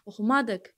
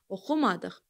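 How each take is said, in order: First: The stress is on the third syllable. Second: The stress is on the second syllable. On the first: The speaker calls it wrong. "a-nın üzərinə atın, oxumadıq, alınmır" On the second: The speaker calls it right. "u-dadır vurğu"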